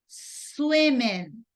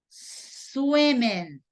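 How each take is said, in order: Both takes have the same delivery.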